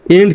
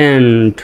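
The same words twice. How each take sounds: First: "এন্ড" said with an i vowel, as "ind"; wrong pronunciation. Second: "এন্ড" lower and falling, with a short e; correct pronunciation. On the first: Teacher warns it is not this, "এন্ড" mispronounced as "ind". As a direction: turn the e of "এন্ড" into i. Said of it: "কিন্তু নয়". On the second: Teacher models E-N-D for learners, "এন্ড" with a short e, lower. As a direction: say "এন্ড" with the vowel of "bed". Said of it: "এন্ড কিন্তু নয়". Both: Shown as a demonstration.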